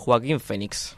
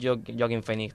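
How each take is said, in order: First: The name is said with a Spanish pronunciation. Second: The name is said with an English-sounding pronunciation. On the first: The speaker calls it right. "Es Joaquín Fénix" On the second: The speaker calls it wrong. "no es Joaquín Fénix"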